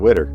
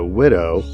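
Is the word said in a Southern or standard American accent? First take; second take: Southern; standard. First: It ends in an 'er' sound. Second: It ends in a clear 'oh' vowel.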